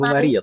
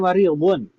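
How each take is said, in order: First: The word ends on a bare consonant. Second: The word ends with a vowel plus n. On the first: "kalau misalkan disukunkan aman" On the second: "kalau dibaca harokatnya mariyudun marfu'"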